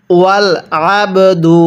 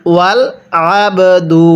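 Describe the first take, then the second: No difference in how they are said.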